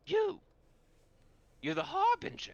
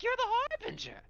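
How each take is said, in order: First: High, loud creature shriek; loud, high-pitched revelation; excited hyena man. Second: Very high, loud giddy squeal; giddy high-pitched creature cry; giggly hyena man. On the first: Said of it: "the hyena man goes". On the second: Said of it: "starts giggling". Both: Acted.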